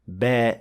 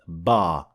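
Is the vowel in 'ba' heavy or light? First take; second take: light; heavy. First: The vowel is light, with an empty mouth. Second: The vowel is heavy, with a full mouth. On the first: The speaker calls it right. "alif that is empty mouth" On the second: The speaker calls it wrong. "not ba"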